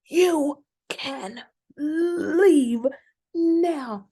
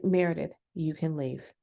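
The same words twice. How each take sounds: First: Much higher, louder, very slow mock outraged dismissal; imitated indignant, near-crying order to leave; real indignation. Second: Said in the usual way. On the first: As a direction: draw it out, hammed-up outrage. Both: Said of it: "it's with real indignation".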